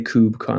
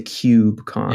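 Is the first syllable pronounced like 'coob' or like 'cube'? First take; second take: coob; cube. First: The first syllable sounds like 'coob', without a y-glide. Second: The first syllable sounds like 'cube', with a y-glide. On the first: "like K O O B" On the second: "like pronouncing the cube"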